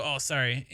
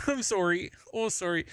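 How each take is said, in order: First: "sorry" as SAR-ee, offhand apology; reflexive Midwestern sorry. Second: Put-on playful Canadian accent, "sorry" as SORE-ee; higher-pitched mock Canadian apology. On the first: Retold or imitated. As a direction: toss off "sorry" with an AH vowel. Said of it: "I'll still go". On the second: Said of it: "or else Canada takes over".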